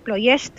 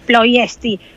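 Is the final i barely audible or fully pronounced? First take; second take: barely audible; fully pronounced. First: The final i is barely audible and soft. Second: The final i is pronounced fully. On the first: The speaker calls it right. "La I es como, es un suave" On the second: The speaker calls it wrong. "No es Ploiești"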